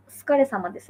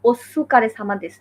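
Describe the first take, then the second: First: "ওসুকারে" as skare, u dropped; devoiced su. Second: "ওসুকারে" with "সু" fully voiced; learner's "ওসুকারে", clear u after the s; wrong full su. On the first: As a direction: run the s straight into k in "ওসুকারে". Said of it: "সুটা আর কি direct উচ্চারণ হবে না". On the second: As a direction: sound out every vowel in "ওসুকারে". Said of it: "ওইটা কিন্তু আসলে ওসুকারে সামাদেস না". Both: Shown as a demonstration.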